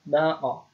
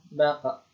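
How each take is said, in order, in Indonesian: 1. Bunyi pantul terakhir terdengar seperti o. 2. Bunyi pantul terakhir terdengar seperti a. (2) "bukan baqa"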